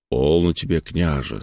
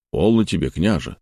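First: Calm. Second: Measured and calm. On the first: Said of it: "спокойно промолвил Лазарь". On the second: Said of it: "снова размеренно произнёс Лазарь". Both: Acted.

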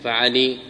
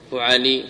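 First: فعلي with a in the first syllable; fa'ali form. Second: فعلي with u in the first syllable; fu'ali form. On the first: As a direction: say فعلي as fa-'a-LEE. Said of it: "في فعيلة". (فعلي بفتح الفاء والعين) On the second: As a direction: say فعلي as fu-'a-LEE. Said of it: "يقال في فعيلة". (فعلي بضم الفاء وفتح العين) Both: Shown as a demonstration.

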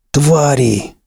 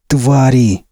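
First: Spat out in disgust; angry curse. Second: Blurted curse. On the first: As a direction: snarl the word with contempt. Max curses the soldiers. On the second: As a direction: fire the word out in rage. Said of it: "вновь выпалил он". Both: Acted.

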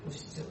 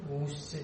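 First: ഉശ്ച with a short clipped u; short u sound. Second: ഊശ്ച with the u drawn out long; long u sound. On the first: (ഹ്രസ്വമായ ഉ) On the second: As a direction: stretch the u in ഊശ്ച. (ദീർഘമായ ഊ) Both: Shown as a demonstration. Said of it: "ഉശ്ച / ഊശ്ച contrast".

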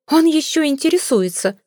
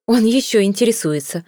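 First: Much higher, outraged echo of the same line; mother repeating herself to the suitor, higher and indignant; shrill indignant repeat. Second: A mildly indignant lady's outcry; mild indignant cry, stress on Он; indignant exclamation. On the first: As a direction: throw it back at him, higher and more scandalised. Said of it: "повторила миссис Флип". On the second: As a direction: exclaim it, a touch scandalised. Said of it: "воскликнула дама". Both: Acted.

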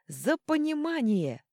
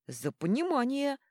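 First: Higher, louder, slowed roar of a crowd; roaring toast. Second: Raised, higher toast; proclaiming toast. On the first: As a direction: bellow it like a crowd of dwarves. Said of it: "взревели гномы". (гномы ревут тост) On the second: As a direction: proclaim it to the table. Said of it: "провозгласил Йорли". (торжественно провозглашая тост) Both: Acted.

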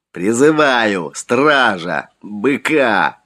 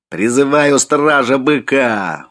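First: Gurgling breathy whisper. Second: Slow, high, loud summons; full-voiced shout. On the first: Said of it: "еле слышно сквозь клокотание жидкости в трахее выдохнул он". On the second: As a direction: call out with all his voice. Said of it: "во весь голос закричал он". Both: A narrator's reading.

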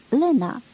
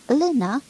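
First: Loud call, falling at the end; calling out again. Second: Loud high call across the platform. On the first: Woman calls the girl a second time, falling shout. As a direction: call the name once more, letting it drop. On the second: Woman calls for lost girl on platform, loud shout. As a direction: shout the girl's name from afar. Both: A narrator's reading. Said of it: "un glas de femeie strigând".

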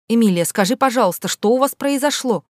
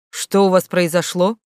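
First: Sugary, coaxing question pitched high; coaxing teacher; ingratiating. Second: Said in the usual way. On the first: Acted. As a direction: wheedle the secret out of her. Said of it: "вкратчиво спросила она".

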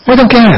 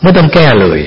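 First: ไม่ต้องแก้ flung out very high; sudden high exclamation. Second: Said in the usual way. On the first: Shown as a demonstration. Monk to listeners, ไม่ต้องแก้ exclaimed very high. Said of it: "เห็นไหม?". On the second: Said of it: "แก้ยังไง?".

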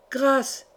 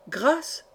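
First: Mildly raised cry for mercy; cried plea. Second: "Grâce" higher, with a rising question tune; questioning repeat. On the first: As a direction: plead as a crowd, not fully shouted. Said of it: "cria la foule des vassaux d'une seule voix". (cri de supplication modéré) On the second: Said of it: "répéta-t-il". (« Grâce » répété en question montante) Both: A narrator's reading.

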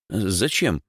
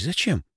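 First: Mildly surprised, higher question. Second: High-pitched puzzled question; bewildered. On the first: Boy is told to swap seats, surprised. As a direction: ask it with slight surprise. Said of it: "удивился Димыч". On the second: Boy asks why a bottle is needed, bewildered. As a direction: ask it high, at a loss. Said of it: "растерялся Димыч". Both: Acted.

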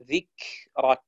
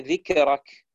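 First: ذكرك said slowly, kaf held then released with breath; slow, careful ذكرك with a clean kaf; correct kaf. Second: ذكرك with a bounced, echoing kaf; ذكرك said with a qalqala on the kaf; wrong kaf. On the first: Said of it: "تقول ذك". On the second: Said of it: "ولا تقول". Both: Shown as a demonstration.

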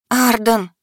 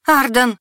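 First: Pleading. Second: High, loud desperate scream of a name; frantic yell. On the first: Heroine pleading in her mind with her wolf, imploring. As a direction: beg him silently to answer. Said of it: "взмолилась я уже мысленно". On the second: Heroine screaming to the wolf across the battle, loud and frantic. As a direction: scream his name in panic. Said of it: "заорала не своим голосом". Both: A narrator's reading.

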